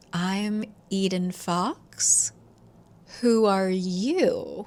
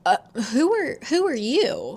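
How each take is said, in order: First: Very slow, deliberate reply; poised impostor. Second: Higher, stammered challenge; taken-aback demand. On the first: Woman at the door claiming Eden's name, poised and deliberate. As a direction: draw it out, coolly turning the question back. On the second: Eden facing a woman in her own doorway, taken aback. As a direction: blurt it out, thrown by a stranger. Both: Retold or imitated.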